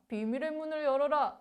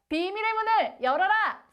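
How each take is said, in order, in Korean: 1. 작고 조용한 목소리로 힘없이 말합니다. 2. 힘차게 큰 소리로 외칩니다. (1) "이렇게 힘없고 네, 작은, 작은 목소리로" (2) "큰 함성으로"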